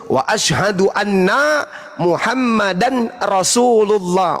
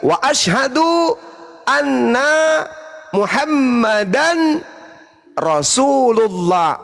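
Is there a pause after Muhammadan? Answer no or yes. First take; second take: no; yes. First: It runs straight on without any pause. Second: There is a pause after Muhammadan. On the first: The speaker calls it wrong. "Yang salah itu kalau saya lanjut" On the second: The speaker calls it right. "menunggu orang yang bersyahadat mengucapkan Muhammadan baru kita lanjut Rasulullah, itu nggak apa-apa"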